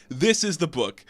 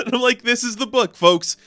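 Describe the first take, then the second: First: Said in the usual way. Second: Laughing, higher and louder; laughing glee. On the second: Real, not acted. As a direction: gush through a laugh about the book. Gleeful about the goofy comic.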